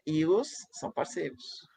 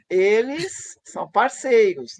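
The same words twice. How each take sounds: First: "Ilos" with an i in place of "Eles", softer; pronome neutro. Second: Said in the usual way. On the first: Shown as a demonstration. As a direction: say "Ilos" as the coined plural pronoun. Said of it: "A proposta é". ("Ilos" no lugar de "Eles", mais baixo) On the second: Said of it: "na língua comum".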